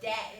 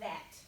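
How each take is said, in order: First: It begins with a d sound. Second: It begins with a th sound. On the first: "Same same with that" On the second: "instead of that"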